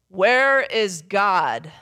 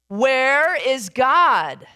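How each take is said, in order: First: It is said in a big booming voice. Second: It is said a little louder still.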